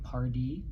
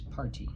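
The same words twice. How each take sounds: First: The middle consonant sounds like a soft d. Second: The middle consonant is a clear t sound. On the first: This is how it sounds in everyday speech. "the way we say it does sound like party" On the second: This shows how the word is really spelled. "but it's party"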